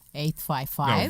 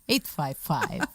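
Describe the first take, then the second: First: It is said in a plain, flat voice. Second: It is said in a sultry, sexy voice.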